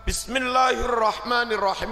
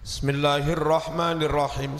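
First: The opening syllable 'bi' is pronounced clearly. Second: The opening syllable is slurred and swallowed. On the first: The speaker calls it right. "Maca bak kudu cetha" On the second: The speaker calls it wrong. "Akeh imam lek maca bismillah ngeten"

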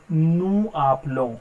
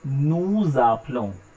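First: The final s of nous is silent. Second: The s links as a z into appelons. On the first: The speaker calls it wrong. "instead of saying nous appelons, because last letter of French is always silent" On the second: The speaker calls it right. "I am saying nous appelons, so it will be pronounced together"

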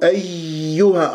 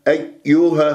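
First: The y is over-pressed with a lot of air. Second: The first y sound is clipped and barely heard. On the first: "أضغط على المخرج كثير الياء فيتشوه الصوت، يطلع عندي هواء كثير" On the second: "ما أختلس الياء الأولى، أيها خطأ"

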